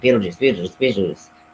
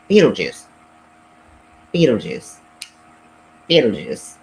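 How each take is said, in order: First: The three names are said quickly together. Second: The three names are said slowly with gaps.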